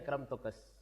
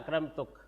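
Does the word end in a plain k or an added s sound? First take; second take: added s; plain k. First: Banu Tamim form, adding an s sound after k. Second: Hijazi form, ending plainly on k.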